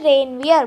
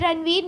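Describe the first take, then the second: First: The name ends with a 'vee-ay' sound. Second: The name ends with a 'veer' sound. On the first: The speaker calls it right. "ये है रेनवियर" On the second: The speaker calls it wrong. "ये रणवीर नहीं है बेटा"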